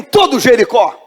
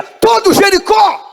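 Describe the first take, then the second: First: Said in the usual way. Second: Shouted response. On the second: Shown as a demonstration. Congregation repeats the response, louder.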